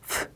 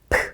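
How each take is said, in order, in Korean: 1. f 소리로 시작해요. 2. p 소리로 시작해요. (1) "프 소리 난다고 생각하시면 되고" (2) "프 아니고"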